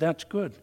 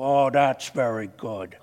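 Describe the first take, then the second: First: It is said in his normal voice. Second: It is said in a Columbo impression.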